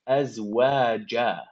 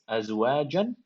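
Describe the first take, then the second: First: The word ends on a long a vowel. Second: The word ends with an n sound. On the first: The reciter stops at this word. "I'm stopping, so I'm gonna say" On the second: The reciter continues to the next words. "jim fathatan jan if I was continuing"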